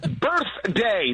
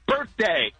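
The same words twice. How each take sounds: First: The th sound in the middle is clearly pronounced. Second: The th sound in the middle is missing. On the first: The speaker calls it right. "There's an H. Use it" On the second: The speaker calls it wrong. "not birthday"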